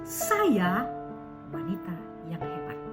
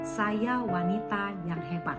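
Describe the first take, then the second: First: The first word carries the stress. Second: It is said flat, with no word stressed. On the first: "yang ditekankan adalah sayanya" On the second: "tanpa nada suara"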